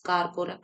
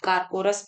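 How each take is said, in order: First: The word ends with a k sound. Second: The word ends with an s sound. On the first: The speaker calls it wrong. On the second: The speaker calls it right.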